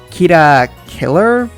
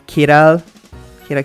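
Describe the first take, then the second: First: The second word sounds like English 'killer'. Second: Both words are said as Japanese 'kira'. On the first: The speaker calls it wrong. "Kira almost sounds like killer" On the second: The speaker calls it right. "if you're gonna say it the Japanese way"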